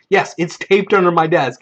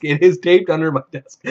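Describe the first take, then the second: First: Acted insistence on "Yes"; retold convincing. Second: Insistent stress on "is". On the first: Player convincing the storyteller, firm "Yes". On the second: Retold or imitated. Player convincing the storyteller, "is" stressed insistently. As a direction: hit the word "is" to convince. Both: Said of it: "trying to convince him".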